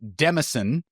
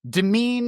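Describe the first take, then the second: First: The word is said as 'demison' with an s. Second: The word is said like 'domain' with silent s. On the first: The speaker calls it wrong. "heard this as Demison, and that's incorrect" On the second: The speaker calls it right. "the S is silent... almost the same pronunciation... as the word domain"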